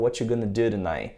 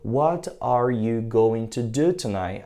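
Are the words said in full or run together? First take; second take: run together; full. First: The words are reduced and run together. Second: Every word is pronounced fully and separately. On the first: This is how people really speak. The speaker calls it right. "Aí o cara fala" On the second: This is the textbook form. The speaker calls it wrong. "você aprendeu"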